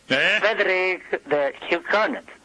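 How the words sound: The name is said in a put-on French accent. "In espressione francese"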